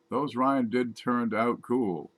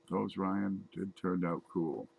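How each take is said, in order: First: Ryan lifted higher and louder, slow; stress on Ryan. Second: Those hit first, the rest slow and even; stress on Those. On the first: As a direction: lean into the word Ryan, slowly. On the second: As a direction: lean into the word Those, slowly. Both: Shown as a demonstration.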